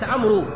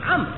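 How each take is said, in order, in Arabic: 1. ينتهي الاسم بصوت واو مسموع. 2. ينتهي الاسم بالحرف الساكن الراء. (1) "ولا تنطق، لا يقال عمرو، هذا خطأ" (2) "عمرو ليس عمرو"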